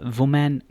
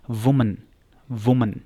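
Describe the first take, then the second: First: वुमेन with a full open "man" ending; wrong pronunciation. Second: वुमन as "WU-mun", weak last vowel; correct pronunciation. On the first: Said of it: "वुमेन नहीं पढ़ना". (वुमेन का गलत उच्चारण, "वुमैन") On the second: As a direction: model वुमन stressing the first syllable. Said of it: "उसकी भी pronunciation". (वुमन का सही उच्चारण, "वुमन") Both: Shown as a demonstration.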